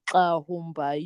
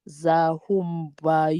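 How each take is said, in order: First: The name begins with a k sound. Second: The name begins with a z sound. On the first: "or as an X" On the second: "use it as a Z"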